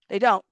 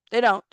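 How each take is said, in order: Both takes have the same delivery.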